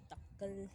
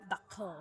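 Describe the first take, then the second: First: Takal with an Ilocano L; Ilocano pronunciation. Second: Takal with an American L; American accent. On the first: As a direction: say "takal" the Ilocano way, tongue on the palate. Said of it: "tall in Ilocano". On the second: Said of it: "with an American accent". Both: Shown as a demonstration.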